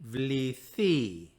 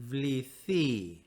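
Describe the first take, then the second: The two takes are said the same way.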